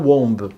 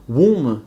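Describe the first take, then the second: First: "womb" wrongly as "wombe", with sounded B; mispronounced womb. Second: "Womb" as "woom", long oo, silent B. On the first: Teacher shows learners the mistake, "womb" with a voiced B. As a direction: say "womb" with an O and a hard final B. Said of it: "not womb". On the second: Teacher shows English learners the right word, "Womb" as "woom". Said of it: "The pronunciation is womb". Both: Shown as a demonstration.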